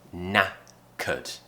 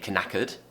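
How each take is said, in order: First: The word begins with an N sound. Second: The word begins with a K sound. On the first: The speaker calls it right. "We have to start with a N sound" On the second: The speaker calls it wrong. "We don't say knackered"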